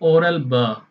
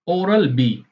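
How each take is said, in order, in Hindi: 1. अंतिम अक्षर 'beh' की तरह बोला जाता है। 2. अंतिम अक्षर 'bee' की तरह बोला जाता है। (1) "वो लोग बोलेंगे फ्रेंच में" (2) "ब्रिटिश में इसको कैसे बोलेंगे?"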